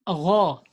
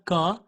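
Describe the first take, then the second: First: It starts with a throaty, friction gh sound. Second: It starts with a hard, stopped g sound. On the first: The speaker calls it right. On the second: The speaker calls it wrong. "It's not ga"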